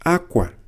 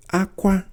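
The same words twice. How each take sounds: First: "Akwa." with a falling tone; tone contrast. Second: "Akwa." kept high and level; tone contrast. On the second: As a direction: say "Akwa." on a raised pitch. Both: Shown as a demonstration. Teacher contrasting two tones of one word. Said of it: "Listen to these two words".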